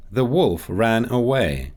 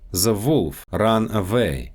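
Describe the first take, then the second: First: Said in the usual way. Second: Russian accent, "The wolf ran away" as "ze volf ran avay". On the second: Shown as a demonstration. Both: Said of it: "W and V sounds".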